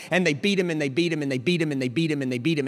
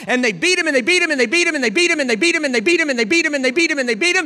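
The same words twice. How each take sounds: First: Quick rhythmic litany at ordinary volume; fast, restrained repeated phrase; rapid repetition. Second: High, loud, rapid-fire preaching; shouted, driving litany; relentless pounding. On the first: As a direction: roll the blows out quickly, held back. First, restrained repeated beating. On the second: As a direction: hammer each repetition like a blow. Beating repeated at full force. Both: Real, not acted.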